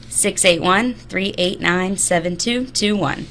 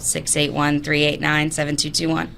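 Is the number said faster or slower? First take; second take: slower; faster. First: The number is said at a slower pace. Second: The number is said at a faster pace.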